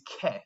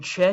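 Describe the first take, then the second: First: It begins with a k sound. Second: It begins with a ch sound. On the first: The speaker calls it right. "C H makes a k sound" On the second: The speaker calls it wrong. "Notice I'm not saying che tipo"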